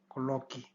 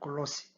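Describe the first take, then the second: First: The last consonant is a k sound. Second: The last consonant is an s sound. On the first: The speaker calls it right. "이렇게 하면 쌍기역 발음 나죠" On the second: The speaker calls it wrong. "이걸 내면 쌍시옷 발음이 납니다"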